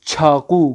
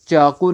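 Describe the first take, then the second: First: چھاقو with a firmly aspirated ch; Persian pronunciation. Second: چاقو with a plain unaspirated ch; Urdu pronunciation. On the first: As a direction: hit چھاقو with a puff of air after ch. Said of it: "بلکہ بولیں گے". (چھاقو فارسی تلفظ میں، ہوا والی چھ کے ساتھ) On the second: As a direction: say چاقو with no puff after ch. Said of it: "تو ہم چاقو نہیں بولیں گے". (چاقو اردو تلفظ میں، بغیر ہوا کی چ) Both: Shown as a demonstration.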